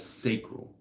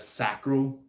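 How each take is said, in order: First: The first syllable rhymes with 'say'. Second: The first syllable rhymes with 'sack'. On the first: This is how the speaker naturally says it. "I naturally say it as sacral, like sacred" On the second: This is how many other people say it. "it sounds a lot more like sacrifice"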